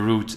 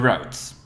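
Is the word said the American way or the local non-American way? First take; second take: non-American; American. First: The word is said with a non-American pronunciation. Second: The word is said with an American pronunciation. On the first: "as we say over here" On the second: "as the Americans would say"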